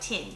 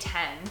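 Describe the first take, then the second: First: It is said in a New Zealand accent. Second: It is said in the speaker's own accent. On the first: "someone from New Zealand would say tin, like tinfoil" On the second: "I would say ten"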